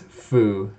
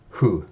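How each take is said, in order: First: It starts with a hard F sound. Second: It starts with a soft breathy H-like sound. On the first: The speaker calls it wrong. "as in the Foo Fighters, or a hard F sound" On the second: The speaker calls it right. "a softer sound that's more like the H"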